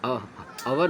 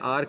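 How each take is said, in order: First: The word is said with two syllables. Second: The word is said with one syllable. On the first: The speaker calls it wrong. "आवर नहीं पढ़ना है आपको" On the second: The speaker calls it right. "सिर्फ आर का pronunciation करना है, ओ यू silent है"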